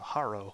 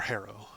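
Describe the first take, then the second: First: "Harrow" with an open ah, HAH-roh; first pronunciation variant. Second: "Harrow" said like HAIR-oh; alternative pronunciation. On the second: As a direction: say "Harrow" with the first vowel of "hair". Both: Shown as a demonstration. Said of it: "however you want to pronounce his name".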